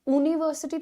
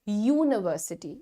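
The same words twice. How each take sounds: First: The word starts with a plain vowel. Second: The word starts with a y sound. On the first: The speaker calls it wrong. "यूनिवर्सिटी थोड़ी कहते हो" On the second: The speaker calls it right. "आप कहते हैं यूनिवर्सिटी"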